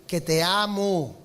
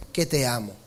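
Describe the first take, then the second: First: "Que te amo" said slowly, each word weighted; slow emphatic declaration. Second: "Que te amo" dropped much lower, like an inner echo; lower tender echo. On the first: Peter declaring love to the Lord, slow and firm. Peter's answer repeated twice. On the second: Peter repeating his love to the Lord, low and inward. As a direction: let "Que te amo" fall low and settle. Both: Acted.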